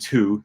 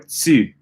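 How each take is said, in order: First: It has an English oo vowel. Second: It has a hissing ts sound before the vowel. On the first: "they're not saying tu" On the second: "or tu if you're in Quebec"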